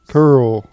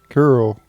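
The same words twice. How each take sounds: First: The name is said as one syllable. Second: The same.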